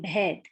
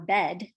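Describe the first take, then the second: First: The b is followed by a puff of breath. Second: The b is plain, with no breath after it. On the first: The speaker calls it right. "do you hear that H in there after the B sound?" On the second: The speaker calls it wrong. "I'm not saying bed"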